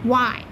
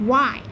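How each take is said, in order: No difference in how they are said.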